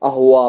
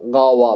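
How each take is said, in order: First: The word begins directly with a vowel. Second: The word begins with a g-like consonant. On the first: This is a dialect pronunciation. "அஹுவா அப்படின்னு சொல்லிட்டு" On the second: This is how it is said in Egypt. "காவா அப்படிங்கிறத ... ப்ரொனன்சியேஷன் பண்ணுவாங்க எஜிப்ட்ல"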